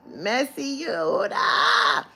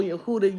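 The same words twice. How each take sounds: First: High, loud, slow call of "Yehuda"; drawn-out call. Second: Said in the usual way. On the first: Real, not acted. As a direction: stretch "Yehuda" into a long teasing shout. Calling out to Yehuda.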